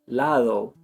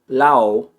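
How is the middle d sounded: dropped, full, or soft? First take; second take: soft; dropped. First: The d is soft, with no tongue contact. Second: The d sound is left out entirely. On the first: The speaker calls it right. "it's lado" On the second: The speaker calls it wrong. "I'm not just eliminating the D, that would be L A O"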